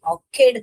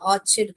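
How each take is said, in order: First: The middle consonant is a 'k' sound. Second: The middle consonant is a 'ch' sound. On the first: The speaker calls it right. "क पढ़ना है इसको। तो ये ऑर्किड पढ़ने का है।" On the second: The speaker calls it wrong. "बहुत लोग गलत प्रोनाउंस करते हैं... इसे ऑर्चिड कहते हैं। ये च नहीं है बेटा"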